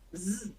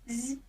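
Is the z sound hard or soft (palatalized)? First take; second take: hard; soft. First: The z sound is hard, not palatalized. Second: The z sound is soft, palatalized. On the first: "Твердий" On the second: "цей звук буде м'який"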